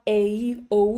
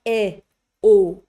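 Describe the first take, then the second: First: A, O as English diphthongs; wrong, gliding A, O; unwanted gliding vowels. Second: E, O as single steady sounds; correct, clean E, O; crisp pure vowels. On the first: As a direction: let A, O slide into a second vowel. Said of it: "We don't want". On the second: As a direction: keep E, O free of any glide. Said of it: "keep those vowels crisp". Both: Shown as a demonstration.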